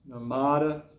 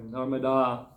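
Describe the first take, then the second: First: The final vowel is short. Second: The final vowel is long. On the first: The speaker calls it wrong. "We always pronounce it wrong" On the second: The speaker calls it right. "sorry, ... they always end in a long vowel"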